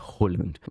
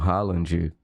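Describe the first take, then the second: First: The name is said sounding like 'Holland'. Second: The name is said the usual local way. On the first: The speaker calls it right. "é Holland" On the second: The speaker calls it wrong. "que nem é a pronúncia do nome dele"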